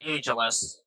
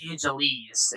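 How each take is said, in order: First: "Angeles" with a short -us ending; correct Angeles. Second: "Angeles" with a long -eez ending; mispronounced Angeles. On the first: Gamer giving viewers the right name, pronounced AN-juh-lus. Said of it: "It's, it's pronounced Angeles". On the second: Gamer quoting own slip of the tongue, mispronounced as Angel-eez. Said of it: "I don't know why I say". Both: Shown as a demonstration.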